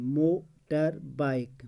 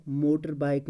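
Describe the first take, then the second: First: motor bike slowly, mo, tar, bike, with gaps; syllable by syllable. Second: Said in the usual way. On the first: Shown as a demonstration. Teacher showing the word has three syllables, syllable by syllable. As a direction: break motor bike into three separate beats. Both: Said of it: "motor bike में तीन".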